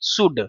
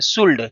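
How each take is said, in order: First: The L sound is left out of the word. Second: The L sound is pronounced in the word. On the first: The speaker calls it right. "इसमें एल silent होता है" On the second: The speaker calls it wrong. "ऐसे बच्चे होते हैं जो इसको शुल्ड पढ़ देते हैं"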